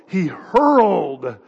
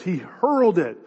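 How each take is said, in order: First: Hurled drawn out slow and heavy; hurled said slow with weight; stress on hurled. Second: Said in the usual way. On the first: Shown as a demonstration. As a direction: lean hard on hurled, slowly. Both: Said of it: "this is an active word".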